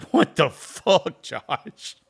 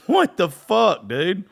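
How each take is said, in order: First: High, loud, slow outraged yell; mock angry dad. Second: Much higher and louder, drawn out yell; mock furious dad. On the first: Dad on the phone yelling at his son Josh, mock angry yell. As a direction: bellow it like a furious freaked-out dad. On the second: Dad yelling at his son down the phone, mock furious peak. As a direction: let the outrage peak as he repeats himself. Dad repeats angry outburst.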